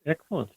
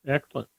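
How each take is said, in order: Both takes have the same delivery.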